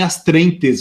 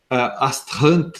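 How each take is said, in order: First: The word is pronounced as written in Portuguese. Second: The word is given a French-style pronunciation. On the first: "a gente meio que abrasileirou essa expressão" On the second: "o pessoal usa a expressão é, francesa"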